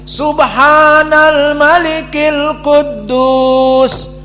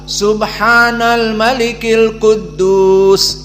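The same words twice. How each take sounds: First: It is said louder, with prolonged vowels. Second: It is said at normal loudness and length. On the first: "Yang ketiga dipanjangkan, dimadkan dan diangkat suaranya" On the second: "Yang kedua"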